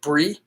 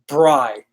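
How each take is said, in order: First: The name does not rhyme with 'fry'. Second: The name rhymes with 'fry'. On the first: This is how callers mispronounce the name. The speaker calls it wrong. "they're always like Brie" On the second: This follows the spelling like fry, dry and cry. The speaker calls it right. "fry, dry, cry, bry"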